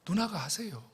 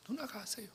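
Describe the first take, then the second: First: Said in the usual way. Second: 누나가 하세요 in a breathless whisper, 누나가 falling. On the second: Shown as a demonstration. Pastor whispering his refusal to his sister. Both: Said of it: "repeats his refusal to the congregation".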